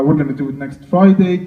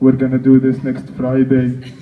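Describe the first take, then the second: First: It is said without an Arabic accent. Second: It is said with a heavy Arabic accent.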